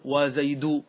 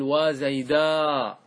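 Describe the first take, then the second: First: Said in the usual way. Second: Very slow model of وزيداء with a stretched ending; alif at the end. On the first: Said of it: "هذا هو الأصل". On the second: Shown as a demonstration. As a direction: draw وزيداء out very long, "waa zaydaaa". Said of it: "تزيد الألف في آخره".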